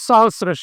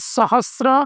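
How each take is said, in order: First: No 't' sound is heard before the 'r'. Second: A 't' sound is heard before the 'r'. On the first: The speaker calls it right. "એમાં ત નથી" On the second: The speaker calls it wrong. "મોટાભાગના લોકો એનો ખોટો ઉચ્ચાર કરે છે"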